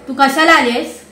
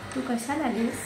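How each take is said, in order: First: It is said in an angry tone. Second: It is said in a loving tone.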